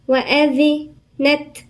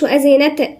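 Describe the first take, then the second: First: The final t is released with flowing breath. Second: The final t has an echoing bounce. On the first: The speaker calls it right. "نديها الصفة بتاعها، والصفة هي الهمس" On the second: The speaker calls it wrong. "ما نقولش وأذنت نقلقلها"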